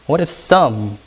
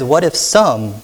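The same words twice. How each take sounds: First: What if some? with if stressed gently. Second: What if some? with the weight on some; What if some? with some stressed. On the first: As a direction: soften the blow by leaning gently on if. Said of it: "this little hypothetical if". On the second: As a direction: lean on the word some in What if some?. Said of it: "softens the blow". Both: Shown as a demonstration.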